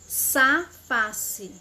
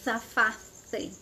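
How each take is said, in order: First: The first sound is an s sound. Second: The first sound is a th sound. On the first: This is how Argentinians say it. "Na Argentina é bem simples de pronunciar" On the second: This is how people in Spain say it. "Na Espanha"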